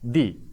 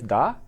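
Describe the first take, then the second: First: The word ends in a long 'ee' vowel. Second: The word ends in a short weak 'uh' vowel. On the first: The next word starts with a vowel sound. "if it were started with um, vowel sound, then I would pronounce it as the" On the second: The next word starts with a consonant sound. "I am pronouncing this the as da because this noun starts with a consonant sound"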